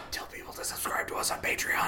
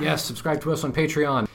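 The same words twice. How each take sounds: First: Hushed whisper. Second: Loud urgent whisper; whisper yelling. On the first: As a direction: whisper it like in a library. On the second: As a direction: whisper it but push it out loud. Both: Real, not acted. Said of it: "Why are we whispering?".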